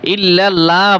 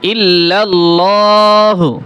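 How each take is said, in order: First: The L sound is thin and light. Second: The L sound is full and heavy. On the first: The speaker calls it wrong. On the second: The speaker calls it right.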